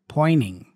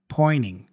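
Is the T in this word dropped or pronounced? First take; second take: dropped; dropped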